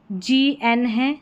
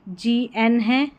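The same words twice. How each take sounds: The two takes are said the same way.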